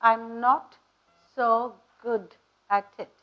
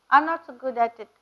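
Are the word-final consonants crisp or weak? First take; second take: crisp; weak. First: The final consonants are pronounced crisply and strongly. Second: The final consonants are pronounced weakly or dropped. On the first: The speaker calls it right. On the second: The speaker calls it wrong.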